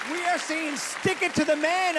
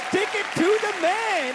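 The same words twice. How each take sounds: First: Said in the usual way. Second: Pitched higher and louder, pumping the crowd; louder repeat. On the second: Shown as a demonstration. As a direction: say it again with more punch.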